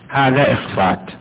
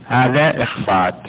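Both takes have the same delivery.

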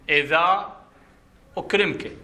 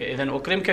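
First: The first word ends in a long a. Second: The first word ends in an n sound. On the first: The speaker pauses after the first word. "إذا وقفت" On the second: The words run on in connected speech. "في درج الكلام"

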